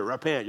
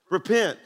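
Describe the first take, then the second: First: "Repent." as a condemning street preacher; a mild imitation of a preacher yelling "Repent."; mock street-corner yell. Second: Said in the usual way. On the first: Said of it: "standing at the corner yelling at you". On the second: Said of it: "one of the most positive words".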